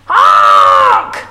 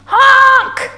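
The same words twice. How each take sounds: First: Long, loud blaring horn shout; yelled honk. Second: High, loud horn cry; scared honk. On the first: Dump truck barging down the road, yelled honk. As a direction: blare it out like a big truck horn. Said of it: "yelled the big dump truck". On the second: Stuck dump truck calling for help, scared honk. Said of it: "and he sounded scared". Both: A narrator's reading.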